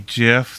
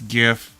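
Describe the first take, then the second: First: It starts with a j sound, like the peanut butter. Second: It starts with a hard g sound, as in gift. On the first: The speaker calls it wrong. "GIF is peanut butter" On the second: The speaker calls it right. "It's GIF"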